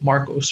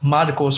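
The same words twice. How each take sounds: First: The name is said with a simpler English pronunciation. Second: The name is said with its original pronunciation. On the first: This is an easier form for people who can't say it. "or if you can't pronounce that, like Marcos" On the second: This is the name's real form. "my name is Marcos"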